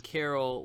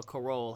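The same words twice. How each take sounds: First: Said in the usual way. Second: "Carol" with the O accented; alternative pronunciation. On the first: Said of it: "however you pronounce it". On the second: Real, not acted. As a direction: say "Carol" as if the O had an accent mark. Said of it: "I thought that was an accent over the O".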